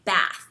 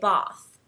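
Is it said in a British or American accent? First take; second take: American; British. First: It is said with an American accent. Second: It is said with a British accent.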